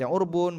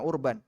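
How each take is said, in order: First: The second syllable has an 'u' vowel. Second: The second syllable has an 'a' vowel. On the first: "Bisa dibaca urbun" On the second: "bisa dibaca urban"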